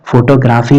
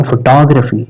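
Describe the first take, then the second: First: फोटोग्राफी as FO-to-GRAA-fee; wrong pronunciation demo. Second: फोटोग्राफी as fuh-TOG-ruh-fee; correct pronunciation demo. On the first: Teacher showing students what to avoid, फोटोग्राफी as "foto-graafee". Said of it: "फोटोग्राफी नहीं बोलेंगे". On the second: Teacher correcting students, फोटोग्राफी as fuh-TOG-ruh-fee. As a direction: stress TOG in फोटोग्राफी, reduce "graa" to "gruh". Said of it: "क्या बोलेंगे". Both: Shown as a demonstration.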